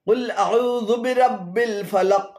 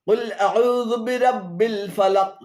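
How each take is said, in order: No difference in how they are said.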